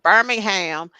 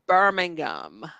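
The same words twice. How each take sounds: First: It is said the American, Alabama way. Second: It is said the British, English way.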